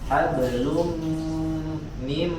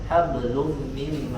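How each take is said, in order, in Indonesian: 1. Dibaca tidak tergesa-gesa dan dengungnya dibaca panjang. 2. Dibaca terburu-buru dan dengungnya dipendekkan. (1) "harus disempurnakan dulu sifat gunnanya" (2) "jangan tergesa-gesa, jangan hablum mim masad"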